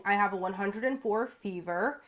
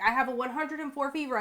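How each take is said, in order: First: Said in the usual way. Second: High, mock whiny excuse. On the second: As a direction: whine it like a lame excuse. Mocking her own lame excuses.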